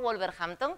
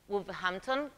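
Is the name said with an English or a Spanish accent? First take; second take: Spanish; English. First: It is said with a Spanish accent. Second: It is said with a local English accent. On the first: This is how Spaniards say it. "como pronunciamos nosotros" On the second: This is how people there say it. "que lo pronuncian allí"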